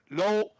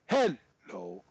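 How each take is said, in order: First: It starts soft and ends loud. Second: It starts loud and ends soft. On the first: "soft loud" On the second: "go loud soft"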